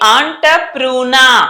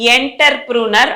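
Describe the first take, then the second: First: The first syllable sounds like 'on'. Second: The first syllable sounds like 'enter'. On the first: The speaker calls it right. "ఈయుఆర్ని ఆ అనాలి" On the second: The speaker calls it wrong. "ఎంటర్ లాగా ఎంటర్ప్రూనర్ అనకూడదు"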